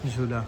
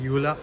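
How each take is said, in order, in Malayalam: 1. ഈ പേര് J ശബ്ദത്തിലാണ് തുടങ്ങുന്നത്. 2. ഈ പേര് Y ശബ്ദത്തിലാണ് തുടങ്ങുന്നത്.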